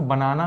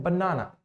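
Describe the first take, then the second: First: बनाना as an even "ba-na-na", no stressed syllable; wrong, unstressed pronunciation. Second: बनाना as "ban-NAA-na", middle syllable held; stress on second syllable. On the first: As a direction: say बनाना evenly, with a short n. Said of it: "इसको बनाना नहीं बोलते हैं". (बनाना बिना किसी syllable पर ज़ोर दिए) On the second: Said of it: "हम इसको बोलते हैं बनाना". (बनाना में बीच वाले "ना" पर ज़ोर) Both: Shown as a demonstration.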